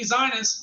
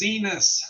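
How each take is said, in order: First: The name rhymes with Linus. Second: The name does not rhyme with Linus. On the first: The speaker calls it wrong. "I thought it could be Zinus, like Linus from Charlie Brown" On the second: The speaker calls it right. "so I know how to pronounce the name. It's Zenus"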